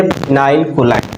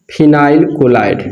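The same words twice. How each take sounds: First: Said in the usual way. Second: Phenyl chloride said very slowly, each part apart; slow, spelled out. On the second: Shown as a demonstration. Teacher drilling the common name to students, slow and deliberate. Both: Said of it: "क्या बोलेंगे?".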